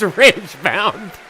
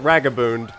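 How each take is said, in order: First: The name ends with a 'bound' sound. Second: The name ends with a 'boond' sound. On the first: The speaker calls it right. "but it is Ragebound" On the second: The speaker calls it wrong. "I almost called it Ragaboond"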